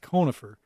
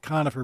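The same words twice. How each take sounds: First: The first vowel is a long O. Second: The first vowel is a short O. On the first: The speaker calls it right. "it's more of a long O" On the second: The speaker calls it wrong. "it's not conifer"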